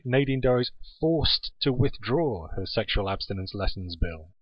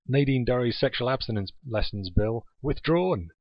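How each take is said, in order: First: Slower, leaning on "forced to withdraw"; stress on forced. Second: Said in the usual way. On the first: Shown as a demonstration. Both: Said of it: "actually, it should say".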